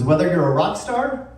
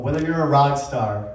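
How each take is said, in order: First: "star" lifted high at the end; stress on STAR. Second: "rock" leads, "star" falls away; stress on ROCK. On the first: Speaker sets up two kinds of rock star, stress on STAR. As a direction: let "star" rise, left open. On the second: Speaker gives the second kind of rock star, stress on ROCK. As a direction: punch "rock" and close downward. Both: Shown as a demonstration.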